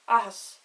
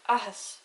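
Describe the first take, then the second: The two takes are said the same way.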